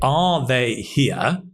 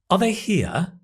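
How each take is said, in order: First: Every word is stressed, with a full 'are'. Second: 'Are' is a weak schwa and unstressed. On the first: The speaker calls it wrong. "probably we don't say... Again, stressing every word" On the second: The speaker calls it right. "the weak form of are, unstressed, is ah, ah, the schwa sound"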